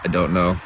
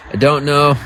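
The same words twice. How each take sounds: First: Said in the usual way. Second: I don't know, pushed up high and loud; louder exasperated repeat. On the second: Real, not acted. Streamer snapping back at chat, loud and exasperated. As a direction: throw the words out, fed up. Repeats answer, second time shouted.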